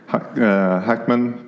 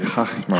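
First: It has an English pronunciation with a hard k. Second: It has a German pronunciation with a throaty ch. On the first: "English, you say Hackman" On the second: "in Germany you would say Hachmann"

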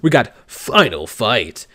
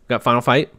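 First: It is said in a dramatic epic voice. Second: It is said in a normal speaking voice.

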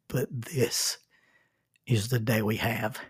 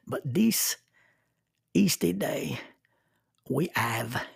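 First: It is said in the speaker's ordinary accent. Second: It is said with a French accent.

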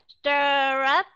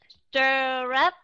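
The two takes are said the same way.

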